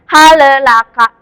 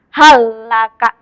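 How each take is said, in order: First: The L bounces with an extra vowel after it. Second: The L is held firmly with no extra vowel. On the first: The speaker calls it wrong. "ini tidak boleh mantul ya" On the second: The speaker calls it right. "Kita harus membaca lam sukun ini ditekan"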